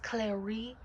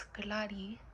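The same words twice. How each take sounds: First: "Clary" said like Claire with an -ee ending; wrong name pronunciation. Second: "Clary" with an open ah, like KLAH-ree; correct name pronunciation. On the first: Vlogger correcting viewers on her name, mispronounced "Clary". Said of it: "my name is not pronounced". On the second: Vlogger telling viewers her real name, correctly pronounced "Clary". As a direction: slowly say "Clary" with a lightly tapped r. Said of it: "no, it's Clary". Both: Shown as a demonstration.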